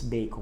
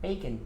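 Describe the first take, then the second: First: It is pronounced with Portuguese sounds. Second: It is pronounced with English sounds. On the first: The speaker calls it wrong. "a gente não fala bacon em inglês" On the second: The speaker calls it right. "A gente fala bacon"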